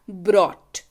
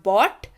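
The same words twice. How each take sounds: First: Slow, careful "brot", contrasted with "bought"; "brought" with R. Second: Careful "bot", contrasted with "brought"; "bought" without R. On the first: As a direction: sound the R after B in "brought". ("brought" को आर के साथ धीरे, "ब्रॉट" बोलें) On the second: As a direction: say "bought" with no R after B. ("bought" को बिना आर, "बॉट" बोलें) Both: Shown as a demonstration. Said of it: "उच्चारण जब भी करें, बड़े ध्यान से करें".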